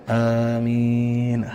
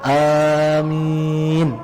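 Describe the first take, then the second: First: It is said weakly and softly. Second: It is said long and firmly loud. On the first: The speaker calls it wrong. "jangan amin. Tong leuleus" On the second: The speaker calls it right. "dirada diagengan. ... segitu"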